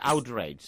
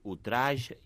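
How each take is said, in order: First: It is pronounced the English way. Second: It is pronounced the French way. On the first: The speaker calls it right. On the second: The speaker calls it wrong.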